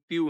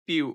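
First: পিউ said flat, with no stress on the u; the wrong way to say পিউ, with no accent on the u; wrong pronunciation. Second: পিউ with the stress on the final u; পিউ ending on an accented, stressed u; correct pronunciation. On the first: Teacher showing learners the wrong way: পিউ said flat. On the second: Teacher giving learners the correct পিউ, stressed on the u. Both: Shown as a demonstration. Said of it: "উচ্চারণটি কিন্তু পিউ নয়".

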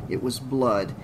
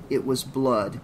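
The two takes are said the same way.

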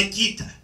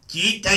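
First: Κοίτα breathed out as a whisper; whispered echo. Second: Said in the usual way. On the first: Acted. Karagiozis looking at the mess, whispering κοίτα. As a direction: repeat κοίτα under the breath.

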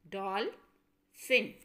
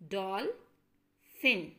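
First: Said in the usual way. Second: Dolphin said slowly, both syllables drawn out; syllables shown. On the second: Shown as a demonstration. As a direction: lay out Dolphin in two parts. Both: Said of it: "So it has two syllables".

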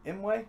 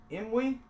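First: Imwe ending in "way"; alternate pronunciation. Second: Imwe ending in "wee"; trying a pronunciation. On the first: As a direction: say Imwe as "IM-way", with a questioning rise. Second try at the surname. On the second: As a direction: say Imwe as "IM-wee", with a questioning rise. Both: Shown as a demonstration.

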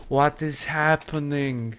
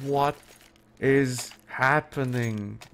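First: Drawn-out, astonished question; baffled exclamation. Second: Very slow, with a long pause after "What"; disbelieving, word by word. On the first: Caster seeing another player knifed, baffled. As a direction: stretch it out in disbelief. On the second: Caster repeating it to himself, slowly disbelieving. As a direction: separate "What", "is", "happening" in disbelief. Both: Real, not acted.

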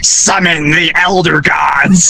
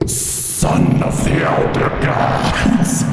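First: Demonic voice. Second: Low, slow, whispered demon voice; demonic whisper. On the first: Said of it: "in the most demonic voice". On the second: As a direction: breathe it like a spirit. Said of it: "I leaned into my mic". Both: Retold or imitated.

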